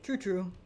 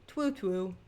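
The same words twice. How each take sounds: First: Said in the usual way. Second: "Twoo, twoo" with a cutesy w for r; baby talk. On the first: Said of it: "Twoo, twoo". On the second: Pretend.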